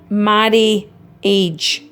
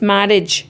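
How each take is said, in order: First: The word is said with three syllables. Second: The word is said with two syllables. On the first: The speaker calls it wrong. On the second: The speaker calls it right.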